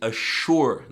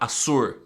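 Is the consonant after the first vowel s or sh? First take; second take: sh; s. First: The middle consonant sounds like sh. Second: The middle consonant sounds like a plain s. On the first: The speaker calls it right. "So you say assure, ... like if there was an H" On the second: The speaker calls it wrong. "not assure"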